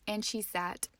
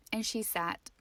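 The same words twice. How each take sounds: The two takes are said the same way.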